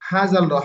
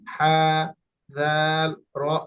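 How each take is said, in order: First: The letter names are run together without pauses. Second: Each letter name is said separately with pauses. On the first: The speaker calls it wrong. "এভাবে পড়ার কোনো প্রয়োজন নেই" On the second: The speaker calls it right. "হাত দিয়ে ধরে ধরে একটু পড়লেন"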